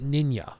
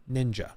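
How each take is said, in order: First: "ninja" with a y sound, nin-ya; co-host's pronunciation. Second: "ninja" with a plain English hard j; American pronunciation. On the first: Retold or imitated. Streamer quoting a co-host's way of saying it, foreign-style pronunciation. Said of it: "He calls it". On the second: Shown as a demonstration. Streamer showing how Americans say it, American pronunciation. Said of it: "I'm American. I always go".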